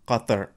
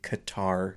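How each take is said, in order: First: The first sound is made deep in the throat. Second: It is said with a North American pronunciation. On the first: "they say it with a really back K sound" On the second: "We say here in North America, we say Qatar"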